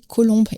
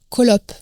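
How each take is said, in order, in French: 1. Le mot se termine par un son b. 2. Le mot se termine par un son p. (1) "Alors c'était Colombe" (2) "j'ai entendu dire Colope"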